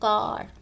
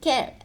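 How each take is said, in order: First: The vowel is a long open 'ah' sound. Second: The vowel is a short front 'ay'-like sound. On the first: The speaker calls it right. "थोड़ा सा long" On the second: The speaker calls it wrong. "ऐसे नहीं पढ़ा जाएगा"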